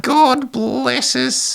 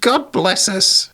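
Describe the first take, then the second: First: Even higher, drawn-out squeaky Aussie spirit; Australian little spirit. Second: Put-on very high, slow squeaky child-ghost voice; cute little spirit. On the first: Acted. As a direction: stretch it out in a sad, creepy, squeaky Australian accent. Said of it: "make it a little more Australian". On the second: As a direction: squeak it out slowly as a tiny spirit. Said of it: "a cute little spirit saying".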